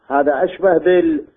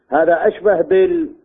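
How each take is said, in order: The two takes are said the same way.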